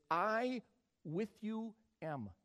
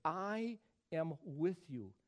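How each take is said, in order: First: I with you am, slow, word by word; Greek word order. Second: Slow, deliberate I am with you; slow reading. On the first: Preacher showing the Greek word order. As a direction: spell out I with you am slowly. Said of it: "The way it reads in the Greek is". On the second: Preacher reading the English slowly. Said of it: "notice how the English reads it". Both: Shown as a demonstration.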